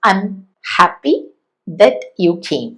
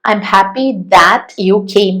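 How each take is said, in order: First: 'That' is said with a short, reduced vowel. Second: 'That' is said with a full, clear vowel. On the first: The speaker calls it right. "നമുക്ക് ഈ ദാറ്റ് എന്നുള്ളതിന്റെ വീക്ക് form use ചെയ്യാം" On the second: The speaker calls it wrong. "വേണ്ട"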